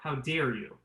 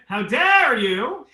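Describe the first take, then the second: First: It is said with a closed, airy timbre. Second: It is said with an open, full timbre.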